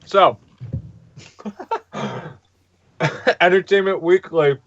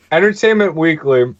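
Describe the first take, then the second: First: Talking around ice cubes; ice in mouth. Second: Said in the usual way. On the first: Real, not acted. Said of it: "me do this with ice in my mouth". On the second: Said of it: "Okay, wait. It's starting to get better".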